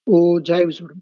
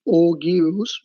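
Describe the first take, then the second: First: The g is soft, sounding like oh-jives. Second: The g is hard, sounding like og-yoos. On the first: The speaker calls it right. "It is ओजाइव्स" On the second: The speaker calls it wrong. "It is not ओग्यूस"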